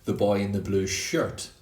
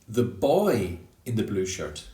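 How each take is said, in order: First: The word shirt carries the main stress. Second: The word boy carries the main stress. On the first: It is not a different piece of clothing. "not the boy in the blue shorts" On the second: It is not a girl wearing it. "not the girl in the blue shirt"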